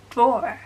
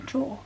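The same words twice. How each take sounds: First: "Drawer" with a strong R at the end, louder; American-style "Drawer", R sounded. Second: "draw" ending on an open vowel, no R; British "draw" with no R; non-rhotic. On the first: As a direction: curl a rhotic R onto "Drawer". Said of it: "like, the American R". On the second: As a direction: drop the final R, just "draw". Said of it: "Our accent is also non-rhotic". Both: Shown as a demonstration.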